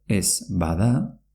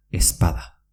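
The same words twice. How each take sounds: First: Said in the usual way. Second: "espada" as es-pada, not es-bada. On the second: Shown as a demonstration. Teacher repeats the merged form, b as p. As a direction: run "espada" together with a p. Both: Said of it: "se pronuncia espada".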